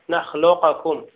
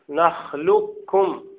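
First: The q sound is released with an echoing bounce. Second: The q merges fully into the k sound. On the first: The speaker calls it wrong. "أما القلقلة فلم يقلقل أحد من القراء" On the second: The speaker calls it right. "أن نلغي القاف، لا يبقى للقاف وجود"

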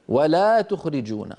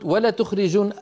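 First: The vowel after the L is long. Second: The vowel after the L is short. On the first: It is a prohibition. The speaker calls it right. "هذه لا ناهية" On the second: It is an emphatic statement. The speaker calls it wrong. "إذا قلت ولا تخرجون أذهبت الألف، أنقصت الألف"

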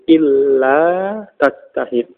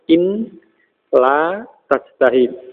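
First: The n merges into a doubled l sound. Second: The n is heard separately before the l. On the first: This is the assimilated form used in pronunciation. "menjadi pengucapannya menjadi illa tajtahid" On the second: This is the original, unassimilated form. "Jadi asalnya in la tajtahid"

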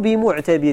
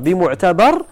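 First: The vowel before the final r is 'i'. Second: The vowel before the final r is 'a'. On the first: "وكسرها" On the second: "يجوز قراءته بفتح الباء"

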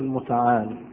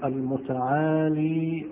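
First: The word ends in a consonant, no final vowel. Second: The word ends in a long ee vowel. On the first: "وأجازوا حذفها" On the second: "فالوقف عليه بالياء الساكنة"

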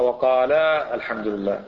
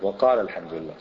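First: The long vowel of qala is fully kept. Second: The long vowel of qala is dropped. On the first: The speaker calls it wrong. "ما تقرأ" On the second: The speaker calls it right. "لأن الألف والألف"

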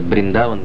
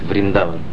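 First: The word begins with a B sound. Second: The word begins with a V sound. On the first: "некоторые говорят Бриндаван" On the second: "некоторые говорят Вриндаван"

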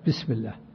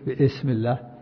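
First: The words are linked with no glottal stop. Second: A glottal stop is pronounced before 'ism'. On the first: The speaker calls it right. "تصل" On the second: The speaker calls it wrong. "ما تقول"

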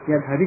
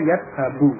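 First: The word ends with an i vowel. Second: The word ends with a u vowel. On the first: The speaker calls it wrong. "yad habi dibaca dengan kasrah" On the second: The speaker calls it right. "Sehingga harus dibaca yadhabu"

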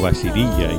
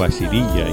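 First: The name is said as Basirilla. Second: The name is said as Basirilla.

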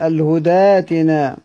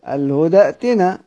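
First: The glottal stop becomes a long a vowel. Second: A glottal stop is heard before the second word.

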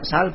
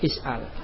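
First: The word is a single short syllable. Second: The word has an extra opening syllable.

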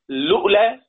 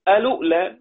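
First: The word starts directly with the l sound. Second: The word starts with a vowel before l. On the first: "فله أن يبدأ بلام" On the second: "على نفس القاعدة"

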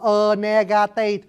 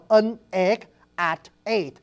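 First: Each final consonant links into the next vowel. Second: Each vowel starts with a glottal break. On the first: "tiếng Pháp họ đọc là" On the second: "có ngắt rộng"

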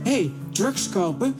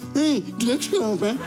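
First: It is said in a normal voice. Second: It is said in a silly, mocking put-on voice. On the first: The criminal makes the offer. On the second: The offer is mocked by repeating it.

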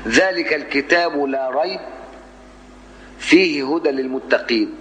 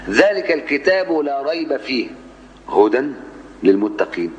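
First: The pause comes right after 'la rayb'. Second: The pause comes right after 'fih'. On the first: The book contains guidance for the God-fearing. "ذلك الكتاب لا ريب، أي لا شك ... فيه هدى للمتقين" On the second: The book itself is guidance for the God-fearing. "لو قلت ذلك الكتاب لا ريب فيه، لا شك فيه، هدى للمتقين"

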